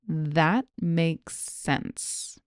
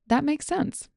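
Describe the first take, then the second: First: The phrase is said at a slow pace. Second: The phrase is said at a normal pace. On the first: "Here it is slowly" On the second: "I'm going to give you the phrase at normal speed"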